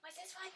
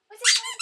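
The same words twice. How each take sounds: First: Said in the usual way. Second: High, loud excited squeal. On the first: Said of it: "repeated louder". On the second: Real, not acted. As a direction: squeal the question with delight. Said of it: "repeated excited high".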